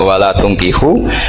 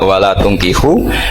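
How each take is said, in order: First: The vowel after the t is u. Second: The same.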